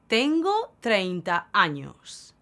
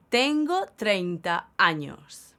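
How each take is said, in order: Both takes have the same delivery.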